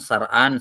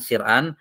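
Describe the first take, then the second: First: The first vowel is a. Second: The first vowel is i. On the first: "yang paling afshah adalah di fathah" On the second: "bisa di kasrah"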